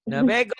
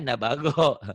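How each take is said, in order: First: The second vowel sounds like an 'e'. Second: The second vowel sounds like an open 'a'. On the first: The speaker calls it wrong. "Eh bukan" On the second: The speaker calls it right. "Bukan nabego ya"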